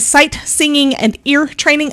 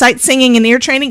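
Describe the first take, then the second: First: It is said slowly. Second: It is said fast.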